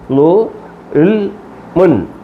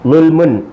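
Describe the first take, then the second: First: The syllables are said separately with breaks. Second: The syllables are joined into one word.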